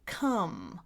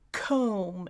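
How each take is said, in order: First: The vowel is a short 'uh' sound. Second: The vowel is a long 'oh' sound. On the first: The speaker calls it right. "instead of come" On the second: The speaker calls it wrong. "comb instead of come"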